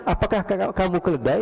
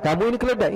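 First: "Apakah kamu keledai" as a simple inquiry, slightly raised; mere question. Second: "Kamu ini keledai" as a high assertion falling at the end; accusing statement. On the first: Showing the man only asked, "kamu keledai" put as a question. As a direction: ask "keledai" as a question, without accusation. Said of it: "ini dia cuma bertanya". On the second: Showing an insult rather than a question, "keledai" asserted with a fall. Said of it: "Enggak, ini dia cuma bertanya". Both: Shown as a demonstration.

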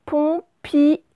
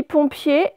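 First: Pompier split as pom-pi-er, each letter sounded; written pompier. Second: Pompier said as usually spoken. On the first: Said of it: "on va écrire pompier". (pompier prononcé comme il s'écrit) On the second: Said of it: "On dit pompier". (pompier comme on le dit) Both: Shown as a demonstration.

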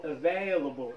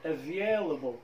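First: Slow available with an open "VAY-uh-la" middle; alternative accepted pronunciation. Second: Slow Available with a gliding stressed "VYE-la" middle; first accepted pronunciation. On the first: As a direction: say available as "a-VAY-la-bol", drawn out. (نطق available ببطء بالطريقة البديلة) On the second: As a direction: draw out the second syllable of Available. (نطق Available ببطء بالطريقة الأولى) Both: Shown as a demonstration. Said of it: "كلا النطقين صحيحين".

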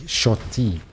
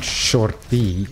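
First: "shorty" as short for shotgun, lower in pitch; corrected pronunciation. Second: "shorty" drawn out slowly with the r sounded; rejected pronunciation. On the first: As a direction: say "shorty" lower, like shot-tee. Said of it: "the shotgun". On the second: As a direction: say "shorty" slowly as the wrong word. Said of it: "Not shorty". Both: Shown as a demonstration.

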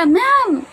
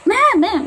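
First: Eager call. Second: High pushy calling out; eager pleading. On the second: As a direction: beg the teacher to pick you. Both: Shown as a demonstration. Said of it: "Huwag man".

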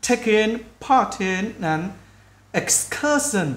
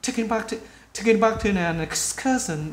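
First: Very slow, separated words; slow practice speech. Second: Quick, linked-up phrase; fast native-style speech. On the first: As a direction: take it word by word for learners. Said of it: "nếu các bạn cứ từ từ nói chậm đi". (nói chậm từ từ) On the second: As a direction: run it together like a native speaker. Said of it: "khi cái người bạn ngữ nói nhanh, người ta sẽ nói là". (nói nhanh, nối âm như người bản ngữ) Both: Shown as a demonstration.

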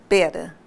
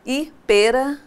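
First: "pera" said as the other word, a lower take. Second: "pera" as the fruit pêra, closed stressed e. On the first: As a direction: contrast "pera" with the fruit reading. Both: Shown as a demonstration. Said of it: "pares de palavras com grafias idênticas e pronúncias diferentes".

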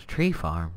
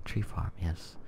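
First: Said in the usual way. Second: Flat, even monotone. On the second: Shown as a demonstration. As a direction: drone the words without melody. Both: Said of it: "With my monotone voice".

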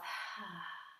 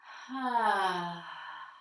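First: Slow, soft breath out through the mouth with almost no voice; long exhale through the mouth. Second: A full, voiced "ah" sigh on the long exhale; voiced deep sigh. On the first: Teacher demonstrates a slow exhale for the class, soft breathy sigh. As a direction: let the breath drain out quietly through the mouth. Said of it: "that long, slow exhale through your mouth". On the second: Teacher shows the class a voiced release, deep audible sigh. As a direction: let the sigh sound out as you release. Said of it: "give some voice to it, like a s-, a deep sigh".

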